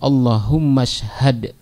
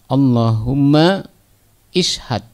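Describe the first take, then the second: First: The second word is joined on, dropping its vowel. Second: The second word starts separately with its own vowel.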